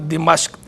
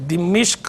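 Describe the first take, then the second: First: It has i after D and a after M. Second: It has the vowel i after both D and M. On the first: "मीम पे ज़बर के साथ भी ठीक है" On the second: "दाल के नीचे ज़ेर, मीम के नीचे ज़ेर के साथ भी ठीक है"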